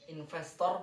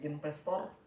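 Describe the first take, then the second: First: The word is said with a v sound. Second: The word is said with a p sound. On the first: The speaker calls it right. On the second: The speaker calls it wrong.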